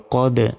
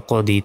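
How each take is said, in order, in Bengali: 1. শব্দটি ধাক্কাযুক্ত, প্রতিধ্বনিত 'd' দিয়ে শেষ হয়। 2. শব্দটি হ্রস্ব 'i' স্বরে শেষ হয়।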